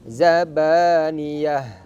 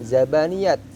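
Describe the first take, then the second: First: The word ends with an 'h' sound. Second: The word ends with a 't' sound. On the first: The speaker calls it right. "ketika diwaqaf dibaca ha" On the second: The speaker calls it wrong. "seharusnya kan zabaniyat"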